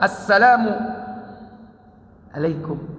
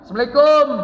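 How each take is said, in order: First: The stress falls on assalam. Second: The stress falls on alaikum.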